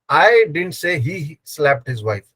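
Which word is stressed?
I. The stress falls on the word I. Someone else said it. "I didn't say. Someone else said"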